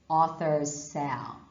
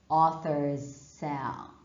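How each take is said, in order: Both takes have the same delivery.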